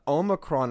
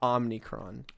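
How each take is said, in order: First: It is said without an n before the c. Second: It is said with an n before the c. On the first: The speaker calls it right. "I've heard that Omicron is correct" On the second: The speaker calls it wrong. "not Omnicron"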